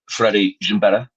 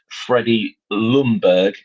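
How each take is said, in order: First: The surname is said with Swedish sounds. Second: The surname is said with English sounds. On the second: "you change"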